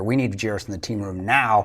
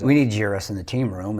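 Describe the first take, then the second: First: It is said forcefully, with urgency. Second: It is said calmly, without urgency.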